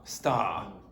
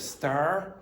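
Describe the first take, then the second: First: The final R sound is dropped. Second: The final R sound is pronounced. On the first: "problems with R sounds at the end of words" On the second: "instead of star"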